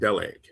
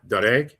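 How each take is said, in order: First: The middle consonant is an L sound. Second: The middle consonant is an R sound. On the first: This is how the word was probably spoken. "but it's probably pronounced Deleg" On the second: This is how the word is spelled. "it's spelled like Dereg with an R"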